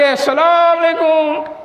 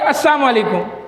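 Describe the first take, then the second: First: The greeting is drawn out long. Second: The greeting is said quickly.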